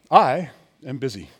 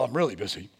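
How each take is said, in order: First: It sounds proud and self-important. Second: It sounds modest and humble.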